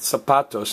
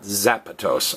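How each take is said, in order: First: The first sound is a hissing s. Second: The first sound is a buzzing z. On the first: The speaker calls it right. "Notice it's pronounced zapatos" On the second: The speaker calls it wrong. "not zapatos"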